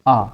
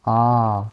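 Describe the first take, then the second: First: The vowel is held only very briefly. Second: The vowel is held for a longer time. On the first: It is a short vowel. "कितना समय लग रहा है? बहुत कम।" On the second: It is a long vowel. "इसमें ज़्यादा समय लग रहा है ना"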